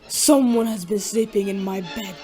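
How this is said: It is said in a great big voice.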